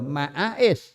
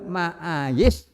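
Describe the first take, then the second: First: The middle consonant is a glottal stop. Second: The middle consonant is a y sound. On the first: "wazane jadi fa'ail hamzah" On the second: "wazane mafail"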